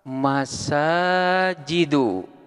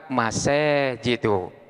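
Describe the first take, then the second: First: The long vowel is a pure open 'a'. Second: The long vowel leans toward an 'e' sound.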